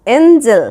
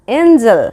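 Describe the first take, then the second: No difference in how they are said.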